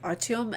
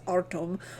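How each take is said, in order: First: The name is said in a Russian way. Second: The name is said in an English way. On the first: The speaker calls it right. "when I heard it, it was pronounced Artyom" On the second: The speaker calls it wrong. "which I know I'm pronouncing wrong"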